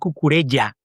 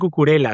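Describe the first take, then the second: First: The final syllable has a double L sound. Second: The final syllable has a plain L sound. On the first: The speaker calls it right. "se pronuncia la, la doble L" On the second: The speaker calls it wrong. "no se dice cucurela"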